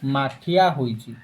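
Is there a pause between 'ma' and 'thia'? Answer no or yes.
no. 'Ma' and 'thia' run together without pause. A clay pot has been made. "ଏକାଥରେ କହିଦେଲି ମାଠିଆ"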